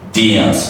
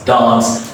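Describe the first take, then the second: First: The vowel has a glide before the n. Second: The vowel is plain, without a glide. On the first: The speaker calls it right. "you put the glider into it and you say dance" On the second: The speaker calls it wrong. "A lot of people say"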